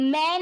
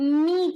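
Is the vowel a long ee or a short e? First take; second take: short e; long ee. First: The vowel is a short e sound. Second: The vowel is a long ee sound. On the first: The speaker calls it wrong. "મેં નહીં થાય" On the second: The speaker calls it right. "મી થશે"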